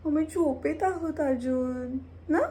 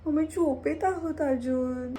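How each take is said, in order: First: Put-on high, louder baby voice for the pet with a rising question; cutesy pet voice, higher and louder. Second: Put-on high, louder baby voice for the pet; cutesy pet voice, higher and louder. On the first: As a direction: coo it for the pet. Voicing the pet again. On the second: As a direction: speak for the pet like a toddler. Voicing the sleepy pet.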